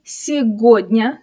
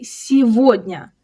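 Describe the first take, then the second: First: "сегодня" with a hard G, as segodnya; mistaken spelling pronunciation. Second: "сегодня" with a V sound, as sevodnya; G turned into V. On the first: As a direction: say the г in "сегодня" as G, not V. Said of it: "we don't say it that way". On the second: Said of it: "The G here turns into V". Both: Shown as a demonstration.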